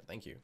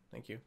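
Both takes have the same delivery.

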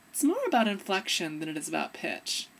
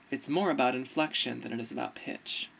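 First: Up in the new voice, "more" swooping high; higher inflection demo. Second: Low-pitched inflection demo. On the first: Showing inflection versus pitch, in the higher new voice. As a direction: pitch it up and lift "more" sharply. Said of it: "You can hear it in my voice". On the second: Showing inflection versus pitch, in the low old voice. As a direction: lower old voice, lift on "more". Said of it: "So you can hear it". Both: Shown as a demonstration.

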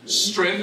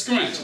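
First: Said in the usual way. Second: SCRUNCH said as "skrent", K replacing T; Gullah pronunciation. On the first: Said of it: "is pronounced as". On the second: Shown as a demonstration. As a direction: open scrunch with skr-, end it short of TH. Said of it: "strength is pronounced as".

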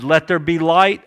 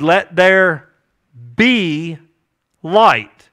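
First: Said in the usual way. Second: "Let there ... be ... light" with a pause between parts; deliberate creation command, broken by pauses; spaced-out command. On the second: Retold or imitated. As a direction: pronounce "be" and "light" separately, each weighty. Repeats God's command word by word.

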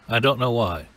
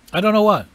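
First: Said in the usual way. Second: High, louder puzzled outburst; high-pitched bewilderment. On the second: Acted. Preacher repeating his puzzlement over prayer, high and loud. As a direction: pitch the whole line up high. High take before usual-voice take.

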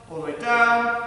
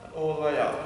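First: "down" sustained on one level note. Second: Low, softer, short falling "up"; dropping instruction. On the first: Coach demonstrating a squat from the side, "down" held long. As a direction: hold "down" as the body sinks. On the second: Coach demonstrating a squat from the side, "up" low and short. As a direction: drop the pitch and close on "up". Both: Shown as a demonstration. Squat demo, voice follows movement.

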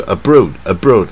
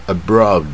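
First: "abroad" with a plain, uncurled second syllable; the wrong way. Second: "abroad" with a strong r curl on the second syllable; heavily curled. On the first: Teacher showing students the way not to say it. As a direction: say "abroad" the way a learner gets it wrong. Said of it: "不是". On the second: Teacher showing students the American-style curl. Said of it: "很卷舌". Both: Shown as a demonstration.

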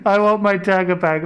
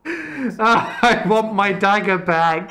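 First: Frustrated shout. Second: Laughing whine. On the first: Repeats demand, louder. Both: Real, not acted.

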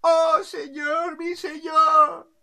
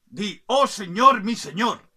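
First: High, loud, drawn-out acclamation; adoring subjects. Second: Loud, higher dictated order; commanding king. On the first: Crowd under the balcony hails the king, high drawn-out acclaim. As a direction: chant it long and high as a crowd. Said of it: "y la gente". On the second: King orders the bird to pay homage, loud command. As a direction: dictate the homage phrase forcefully. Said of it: "Y el rey, viéndolo, dijo". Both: Acted.

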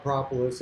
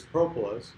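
First: "propolis" as PRAH-puh-lis; short-o pronunciation. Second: "propolis" as PROH-puh-lis; long-o pronunciation. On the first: Beekeeper giving own usual variant, short-o "propolis". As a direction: open "ah" in the first syllable of "propolis". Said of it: "I always taught propolis". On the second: Beekeeper showing what most everybody says, long-o "propolis". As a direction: round "oh" in the first syllable of "propolis". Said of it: "most everybody says propolis". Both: Shown as a demonstration.

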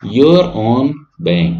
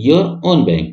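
First: "your own bank" drawn out very slowly, word by word; teacher dictating a tagline slowly; slow stressed tagline. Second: Said in the usual way. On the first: Shown as a demonstration. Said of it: "ये word जरूर याद रखिएगा". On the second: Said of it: "और tagline क्या है इनका".

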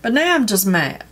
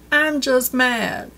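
First: Said in the usual way. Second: "I'm just mad" slower, leaning on "I'm"; emphatic repeat. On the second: Real, not acted. Telling viewers about the beauty box, slow and emphatic. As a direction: stretch out "I'm just mad" and weigh each word.

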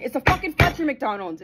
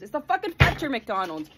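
First: Lilting chanted line; sing-song chant. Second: Said in the usual way. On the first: Acted. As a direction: chant it like a jingle.

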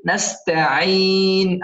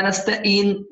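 First: نستعين slow, with a full pharyngeal ع; correct ayn. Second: نستعين with ع weakened to a glottal stop; mispronunciation demo. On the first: Teacher corrects it, slow نستعين with clear ع. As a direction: squeeze the throat on ع in نستعين and hold the vowel. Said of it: "عين، تمام؟". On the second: Teacher shows the mistake, نستعين with hamza for ع. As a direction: drop the throat ع from نستعين, like nasta-een. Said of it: "لا نستعين". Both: Shown as a demonstration.

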